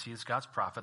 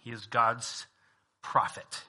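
First: Said in the usual way. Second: "God's" stressed, then a pause before a breathy "prophet."; He is "God's" ... "prophet." said slowly and pointedly; slow emphasis. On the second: Shown as a demonstration. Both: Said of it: "Check that".

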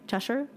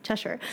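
First: "Cheshire?" said as CHESH-er with a doubtful rise; unsure pronunciation. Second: "Cheshire" said settled as SHESH-er after correction; corrected pronunciation. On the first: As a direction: ask "Cheshire?" unsure how to say it. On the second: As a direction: say "Cheshire" confidently, falling. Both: Shown as a demonstration.

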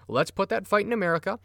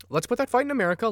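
First: Said in the usual way. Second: Emphatic restart. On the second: Real, not acted. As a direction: blurt it out again with force. Retakes line after coughing fit.

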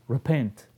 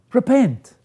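First: Low, soft "repent." said under the breath; quiet repent. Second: "Repent." high and loud, a ringing command; forceful repent. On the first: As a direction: hush the first "repent." down low. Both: Acted. The Lord's call, repeated.

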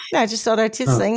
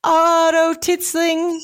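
First: Said in the usual way. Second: High, held, intoned name; grandly intoned, slow and high; drawn-out mock announcement. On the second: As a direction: stretch the name out slowly on one high note. Mock announcing the man seen.

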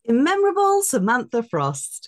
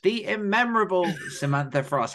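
First: Announcer intro. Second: Laughing echo. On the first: Grand introduction. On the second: Echoing with a laugh. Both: Acted.

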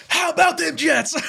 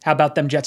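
First: High-pitched fired-up fan holler; re-enacted excited rallying cry; all fired up. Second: Said in the usual way. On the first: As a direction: whoop it like a hyped-up Jets fan. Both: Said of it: "I'm, like, all fired up".

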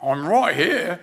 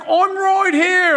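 First: Lower, drawn-out mock English accent; stretched English accent, without the shout; English accent echo. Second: High, loud, slow English holler; stretched-out mock English accent yell; English accent shout. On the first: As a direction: repeat it slowly in a put-on English accent. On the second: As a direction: call out in an exaggerated English accent. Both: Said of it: "he was from England".

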